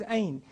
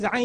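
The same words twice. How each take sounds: First: "Ayn" with no throat consonant, just a vowel start; learner's mistaken Ayn. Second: "Ayn" opened with a constricted throat consonant; correct tajweed Ayn. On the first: Retold or imitated. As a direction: imitate a pupil missing the throat sound in "Ayn". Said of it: "he can't get the ayn out". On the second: Shown as a demonstration. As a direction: squeeze the throat at the start of "Ayn", as the teacher models it. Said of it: "can't get the ayn out".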